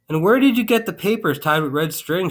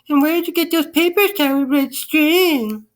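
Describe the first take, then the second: First: It is said in an ordinary speaking voice. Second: It is said in a high, shrill voice.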